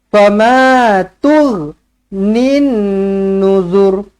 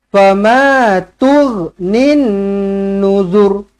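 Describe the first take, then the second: The two takes are said the same way.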